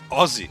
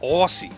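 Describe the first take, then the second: First: The word is said with an Australian pronunciation. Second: The word is said with an American pronunciation. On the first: The speaker calls it right. "Aussie, yeah, that's what people say" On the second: The speaker calls it wrong. "If you s- if you pronounce it like Aussie"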